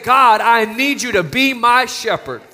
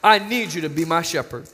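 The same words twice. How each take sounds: First: Louder and higher, pleading prayer; fervent plea. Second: Soft repeat. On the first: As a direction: call out to God with urgency. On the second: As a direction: say it again softly, like a confession. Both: Shown as a demonstration. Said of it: "we need to say".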